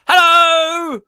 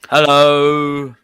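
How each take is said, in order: First: It is said with exaggerated cheer. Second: It is said with little cheer.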